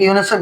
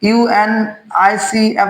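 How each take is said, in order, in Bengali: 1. এটা একসাথে একটা শব্দ হিসেবে বলা হয়। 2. প্রতিটি অক্ষর আলাদা করে বলা হয়। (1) "নাকি ইউনিসেফ বলছি" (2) "ইউএনআইসিএফ বলছি"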